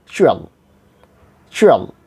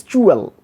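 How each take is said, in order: First: CHUAL with a short, lax u; correct short sound. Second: CHUAL with a tense OO, pitched up; wrong long oo. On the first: Teacher gives the right ending, short sound. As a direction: say "chual" low and quick, u kept light. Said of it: "short sound has been". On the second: Teacher shows the wrong ending, long oo. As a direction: say "chual" as choo-el, higher and rounded. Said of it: "Not like this". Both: Shown as a demonstration.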